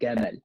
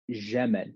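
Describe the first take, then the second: First: It starts with a hard g sound. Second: It starts with a soft zh sound. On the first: "in Egypt, they'll say Gamal. So anytime there's a jim, they'll say g" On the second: "in Syria and the Sham region, you'll hear Jamal ... They'll make a j sound instead of a proper j sound"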